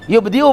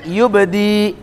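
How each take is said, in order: First: A glottal stop comes before the final vowel. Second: It ends on a long vowel without glottal stop. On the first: This is the word's original form. "Kalau wakaf yubdi'u" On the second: This is how it is read when stopping. "bacanya yubdi"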